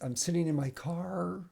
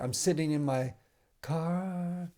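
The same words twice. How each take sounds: First: The R at the end of car is hard. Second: The R at the end of car is soft. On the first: "There's a hard R" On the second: "She doesn't say"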